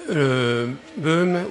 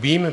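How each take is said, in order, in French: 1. La voyelle se prononce 'euh'. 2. La voyelle se prononce 'ee'. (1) "il y a BEUM" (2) "puisqu'il paraît que ça se prononce BIM"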